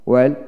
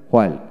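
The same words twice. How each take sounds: First: ওয়েলক starting on w, no h; ওয়েলক with a plain w onset; British w pronunciation. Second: হোয়ালক with an audible h first; হোয়ালক starting on breathed hw; American h pronunciation. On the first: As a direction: drop the h in ওয়েলক. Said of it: "British উচ্চারণে". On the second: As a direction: sound the h in হোয়ালক. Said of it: "আমেরিকানে হ". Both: Shown as a demonstration.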